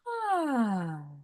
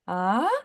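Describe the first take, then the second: First: The sigh fades out gradually at the end. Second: The sound is tossed off abruptly at the end.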